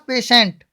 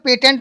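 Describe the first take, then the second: First: The middle consonant is pronounced as sh. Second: The middle consonant is pronounced as t. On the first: The speaker calls it right. "क्या हो जाएगा पेशेंट" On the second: The speaker calls it wrong. "पेटेंट नहीं बोलेंगे"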